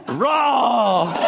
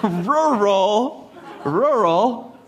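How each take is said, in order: First: Hammed-up, drawn-out single-syllable "rural", high; wife's way of saying rural. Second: "Rural" in two distinct syllables, both r's sounded; higher, careful ru-ral for "Rural"; correct rural. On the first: Husband mocking how wife says it, slurred "rural". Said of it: "the way my wife says rural is". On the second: Husband showing how he reads it, careful "Rural". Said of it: "That's how I know how to read it". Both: Shown as a demonstration.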